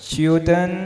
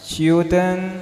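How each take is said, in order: Both takes have the same delivery.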